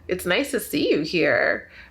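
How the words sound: The voice is modified and flirtatious in tone. The speaker is flirting with the listener. "you can change the tone of your voice"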